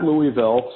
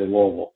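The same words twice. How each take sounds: First: It is said the way outsiders pronounce it. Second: It is said the way locals pronounce it. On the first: The speaker calls it wrong. "it's not Louisville" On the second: The speaker calls it right. "down there they say Louisville"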